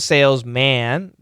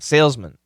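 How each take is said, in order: First: The last syllable has a full, clear 'man' vowel. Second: The last syllable has a reduced schwa vowel. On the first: It stresses that the person is a man. "if we want to emphasize man, not a woman" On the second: It names the job without regard to gender. "It's going to be M schwa N"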